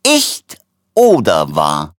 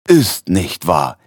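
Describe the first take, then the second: First: Very slow words broken by coughing; hüstelnd. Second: Slow, drawn-out delighted exclamation; begeistert. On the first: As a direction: cough your way through the exclamation. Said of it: "rief der Doktor hüstelnd". (hüstelnd und stark gedehnt) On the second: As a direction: marvel at it slowly, enthused. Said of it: "rief Tretebalg begeistert". (begeistert und gedehnt) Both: A narrator's reading.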